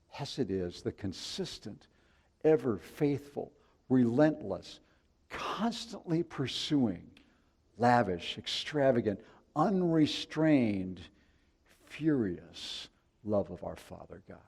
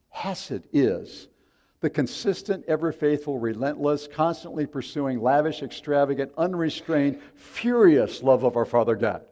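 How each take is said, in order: First: It is said at a slower pace. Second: It is said at a faster pace.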